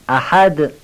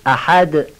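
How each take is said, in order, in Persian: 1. صدای آخر، د صدادار است. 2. صدای آخر، د صدادار است.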